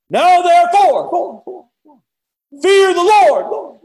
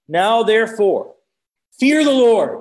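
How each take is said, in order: First: Very high, drawn-out booming shout; echoing valley proclamation. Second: Raised, slow preacher's proclamation; emphatic Bible verse, voice lifted; forceful scripture reading. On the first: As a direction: bellow it slowly across a whole valley. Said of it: "I can just hear it echo in the valley". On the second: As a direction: read it out firmly, pitched higher and loud. First, less booming scripture reading. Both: Acted.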